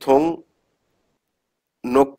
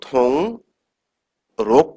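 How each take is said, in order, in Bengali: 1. দ্বিতীয় সিলেবলটি N ধ্বনি দিয়ে শুরু হয়। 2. দ্বিতীয় সিলেবলটি R ধ্বনি দিয়ে শুরু হয়। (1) "রাইট" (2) "থং রোগ করব নাকি থং নোক করব"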